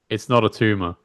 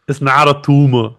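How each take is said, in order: First: It is said in a normal voice. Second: It is said in a put-on accent.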